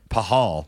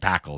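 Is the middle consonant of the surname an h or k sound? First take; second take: h; k. First: The middle consonant is a soft h sound. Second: The middle consonant is a hard k sound. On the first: The speaker calls it right. "I went and looked because we're talking about pronunciation" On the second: The speaker calls it wrong. "if you look at his name, it should be Braden Pakal"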